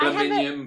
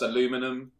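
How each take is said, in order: First: It is said with a British accent. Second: It is said with an American accent. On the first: "aluminium versus aluminum" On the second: "aluminium versus aluminum"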